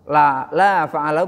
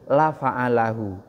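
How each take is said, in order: First: The vowel of the first word is drawn out long. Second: The vowel of the first word is clipped short. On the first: He did not do it. "kalau la panjang itu artinya tidak" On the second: He truly did it. "benar-benar telah melakukannya"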